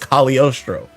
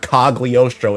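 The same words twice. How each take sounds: First: The G in the middle is left silent. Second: The G in the middle is clearly sounded. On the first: The speaker calls it right. "You don't say the G" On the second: The speaker calls it wrong. "It's not Cagliostro"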